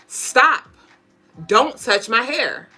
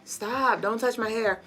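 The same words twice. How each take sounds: First: It is said firmly with strong energy. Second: It is said weakly with little energy. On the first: The speaker means it and expects to be obeyed. The speaker calls it right. "that's how you need to assert yourself" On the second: The speaker is not really insisting. The speaker calls it wrong.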